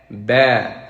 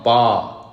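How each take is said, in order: First: The vowel is light, said with spread lips. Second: The vowel is heavy, said with open mouth. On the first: The speaker calls it right. "for fatha, you smile" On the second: The speaker calls it wrong. "Not ba"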